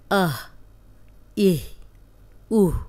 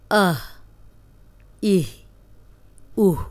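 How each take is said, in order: Both takes have the same delivery.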